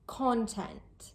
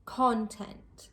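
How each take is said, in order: First: The stress is on the first syllable. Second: The same.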